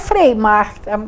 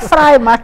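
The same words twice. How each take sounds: First: Frei has an 'ay' vowel, like 'day'. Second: Frei has an 'eye' vowel, like 'fry'. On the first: It means the friar's market. "para quem não fala alemão é Freimarkt" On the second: It means free market. "para quem fala alemão é Freimarkt"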